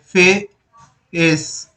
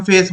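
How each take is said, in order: First: "फेस" pulled apart as फे, then एस; very slow "फेस" in two separate parts; split in two. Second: Said in the usual way. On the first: Shown as a demonstration. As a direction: break "फेस" into फे and एस with a gap. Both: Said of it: "दो word से मिलकर के बन रहा है".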